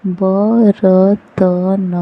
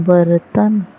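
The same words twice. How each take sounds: First: बर्तन split into slow parts ब-र-त-न; spelled out slowly. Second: Said in the usual way. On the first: Shown as a demonstration. Teacher sounding out बर्तन slowly for the class. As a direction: sound out बर्तन piece by piece, drawn out. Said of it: "syllable-by-syllable then whole". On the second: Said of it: "whole word after sounding out".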